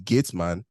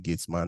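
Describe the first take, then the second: First: The word is said with a standard pronunciation. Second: The word is said with a Nigerian pronunciation.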